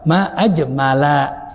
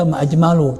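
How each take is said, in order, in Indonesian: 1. Kata terakhir berakhir dengan vokal 'a'. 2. Kata terakhir berakhir dengan vokal 'u'. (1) "tapi baca apa? Ma'ajmala" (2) "jangan dibaca ma'ajmalu"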